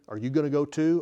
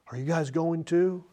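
First: It is said in a sarcastic tone. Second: It is said in a sorrowful tone.

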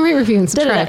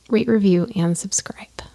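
First: It is rattled off quickly like a disclaimer. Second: It is said at a normal, steady pace.

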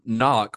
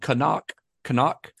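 First: The name is pronounced the plain English way. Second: The name is pronounced the German way.

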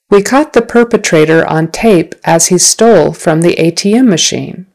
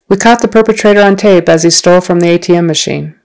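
First: The sentence is spoken slowly. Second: The sentence is spoken at natural, faster speed. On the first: "I'll say the sentence slowly" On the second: "at a more natural speed"

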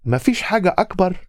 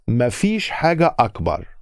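First: The pitch rises at the end. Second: The pitch falls at the end. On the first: It asks whether there is anything bigger. "Just with the intonation. It's just how you say it" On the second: It states that there isn't anything bigger. "There isn't anything bigger"

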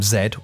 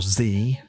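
First: The letter is said the British way, zed. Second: The letter is said the American way, zee.

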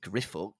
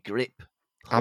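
First: The middle is said as a single 'f' sound. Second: The middle is said as 'p' then 'h'. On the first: The speaker calls it wrong. "pronouncing it Griffook" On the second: The speaker calls it right. "It has got to be Grip Hook"

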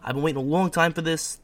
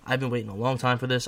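First: It is said in a strong New York accent. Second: It is said in the speaker's ordinary accent.

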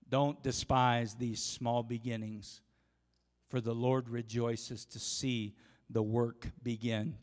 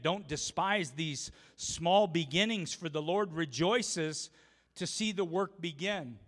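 First: It is read very slowly. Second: It is read at a normal pace.

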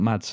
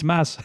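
First: The name ends with a clear d sound. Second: The name sounds like 'Mass', without d. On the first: The speaker calls it wrong. "his name's not Mads" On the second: The speaker calls it right. "It's Mads"

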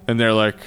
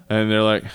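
The two takes are said the same way.

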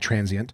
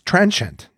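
First: The middle is said without a 'sh' sound. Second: The middle is said with a 'sh' sound. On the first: The speaker calls it wrong. "I say transient, but it's not" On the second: The speaker calls it right.

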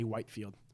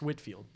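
First: The first syllable rhymes with 'white'. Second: The first syllable rhymes with 'wit'. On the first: The name is said the way it is spelled. The speaker calls it wrong. "I'll just say Whitefield" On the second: The name is said the way the family says it. The speaker calls it right. "It's pronounced Whitfield"

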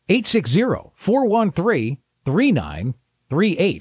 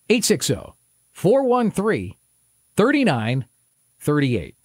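First: The number is read at normal speed. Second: The number is read more slowly.

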